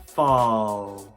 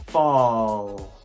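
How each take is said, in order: The two takes are said the same way.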